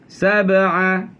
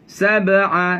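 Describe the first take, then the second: The two takes are said the same way.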